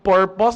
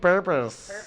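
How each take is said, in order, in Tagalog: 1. Nagsisimula ang salita sa simpleng tunog na p. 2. Nagsisimula ang salita sa tunog na f. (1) "yung P nagiging F"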